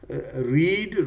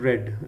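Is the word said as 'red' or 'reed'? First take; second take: reed; red. First: The vowel is long, like in 'reed'. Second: The vowel is short, like in 'red'. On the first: It is the present form. "पहले वाले को रीड बोलते हैं" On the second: It is the past form. "दूसरा रेड"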